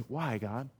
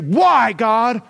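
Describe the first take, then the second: First: It sounds humble and pleading. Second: It sounds defiant, like shaking a fist.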